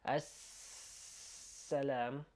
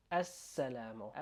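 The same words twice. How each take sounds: First: السلام with the S held far too long; overlong S. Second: السلام with a short doubled S; quick doubled S. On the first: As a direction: drag out السلام slowly, overdoing it. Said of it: "you're not gonna be like". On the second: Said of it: "but quicker". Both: Shown as a demonstration.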